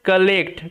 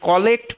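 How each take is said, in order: First: The first vowel sounds like an 'a'. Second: The first vowel sounds like an 'o'. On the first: The speaker calls it right. "এটার উচ্চারণটা হচ্ছে কালেক্ট" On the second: The speaker calls it wrong. "কলেক্ট পড়লে কিন্তু ভুল হয়ে যাবে"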